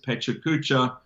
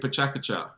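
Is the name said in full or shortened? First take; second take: full; shortened. First: The name is said in full, every syllable clear. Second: The name is said shortened, with sounds dropped. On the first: This is how most people elsewhere say it. "everybody says pechakucha" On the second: This is how Japanese speakers say it. "in Japanese, we say pachakacha"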